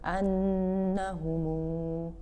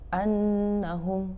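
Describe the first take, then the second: First: The word ends with an extra u vowel. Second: The word ends on a closed m sound. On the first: "silah yakni menyambungkan mim jamak dengan huruf mat" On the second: "Jika dibaca sukun"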